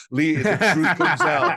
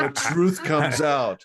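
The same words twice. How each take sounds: First: Laughing, high and loud gotcha; laughing tease. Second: Slow, high melodramatic reveal; mustache twirling villain. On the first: Real, not acted. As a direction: tease him through a laugh. Teasing guest, laughing. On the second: Pretend. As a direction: savor it like a stage villain. Repeats the gotcha dramatically.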